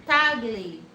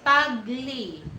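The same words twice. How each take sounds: No difference in how they are said.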